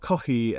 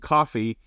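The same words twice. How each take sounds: First: It is said with a Japanese-style pronunciation. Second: It is said with an English pronunciation. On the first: This is how listeners expect to hear it. The speaker calls it right. "that's how it has to be said" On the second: Listeners would not understand it. The speaker calls it wrong. "you could say to them coffee, and they'll be like, I don't know what you're"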